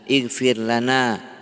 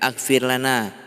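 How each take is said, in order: First: The phrase begins with an i vowel. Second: The phrase begins with an a vowel. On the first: The speaker calls it right. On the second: The speaker calls it wrong.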